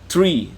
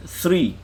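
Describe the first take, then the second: First: Tree said with a hard t and no th; tree, clean t and r cluster; tree with plain t. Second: Three, breathy th at the start; th sound demo. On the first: Teacher contrasting English tree for students, hard t. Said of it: "tree tu sebut tha tu, bukan teri". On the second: Teacher contrasting English th for students, correct take. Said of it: "Dia sebut tha". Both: Shown as a demonstration.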